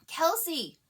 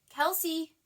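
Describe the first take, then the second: First: It is an almost hysterical scream. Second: It is called louder and more urgently.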